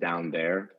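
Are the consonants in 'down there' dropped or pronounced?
pronounced. All consonants are pronounced in a standard accent. "instead of"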